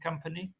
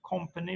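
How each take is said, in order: First: The first vowel is an uh sound. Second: The first vowel is an O sound. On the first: "rather than company" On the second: "with an O"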